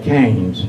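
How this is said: It is said with an American pronunciation. "we call it Cannes"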